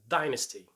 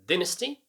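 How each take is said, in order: First: It is said in an American accent. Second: It is said in a British accent.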